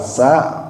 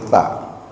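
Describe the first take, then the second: First: The consonant is a plain hissing s sound. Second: The consonant is a th sound, tongue between teeth. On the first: The speaker calls it wrong. "bukan sa" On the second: The speaker calls it right. "tapi ta. Ta itu ujung lidahnya sedikit digigit"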